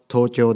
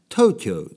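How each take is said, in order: First: It is said with a Japanese pronunciation. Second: It is said with an English-style pronunciation. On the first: The speaker calls it right. "東京は東京ですからね" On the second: The speaker calls it wrong. "東京じゃないですよね"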